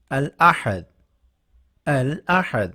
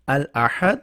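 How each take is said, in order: First: الاحد said slowly as al-ahad, each sound clear; careful Arabic pronunciation. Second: الاحد as al-ahad with a small rising end; careful Arabic pronunciation. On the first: Teacher modelling الاحد for Urdu students, careful and clear. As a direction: model الاحد for learners to repeat. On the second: Teacher repeating الاحد to learners, rising and clear. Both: Shown as a demonstration. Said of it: "یہ اس کی Arabic pronunciation ہے".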